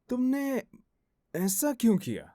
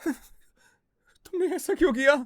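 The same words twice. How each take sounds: First: The line is said in a suspicious tone. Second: The line is said in a scared tone. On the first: "suspicious" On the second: "scared"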